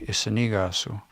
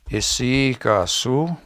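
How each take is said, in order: First: The consonant after isi is an n sound. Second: The consonant after isi is a y sound. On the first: "in N they say" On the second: "we say"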